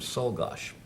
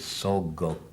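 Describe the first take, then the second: First: The name ends with a 'gosh' sound. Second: The name ends with a 'go' sound. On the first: This is one version of the family's pronunciation. "the family pronounced the name Solgosh" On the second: This is the family's actual pronunciation. "it was even farther away than Solgosh. It was Solgo"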